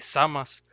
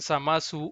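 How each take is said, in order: First: The name ends with an s sound. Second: The name ends with an added vowel. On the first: The speaker calls it right. "más apegado a la pronunciación original en japonés, así" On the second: The speaker calls it wrong. "los que le decían Samasu"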